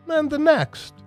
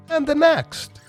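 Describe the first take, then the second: No difference in how they are said.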